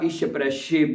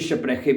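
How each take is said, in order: First: The 'ch' in spreche is a soft sh sound. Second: The 'ch' in spreche is a throaty kh sound. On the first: "दोनों तरह से सही होगा" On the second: "शीन और खे दोनों की आवाज में ये प्रोनाउंस किया जाता है"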